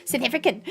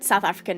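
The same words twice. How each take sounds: First: Put-on soft South African accent, vowels pinched toward "seth efrican"; imitated South African accent, said softly. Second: Said in the usual way. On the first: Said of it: "I have to say it every single time".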